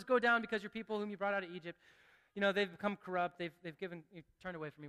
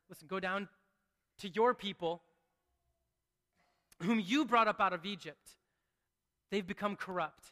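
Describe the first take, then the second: First: Flat offhand reading. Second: Weighty, sincere telling of God's words; earnest reading. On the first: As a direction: rattle it off like it doesn't matter. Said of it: "we could just read it and say". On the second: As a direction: let each phrase land with weight. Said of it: "it's more than that". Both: Shown as a demonstration.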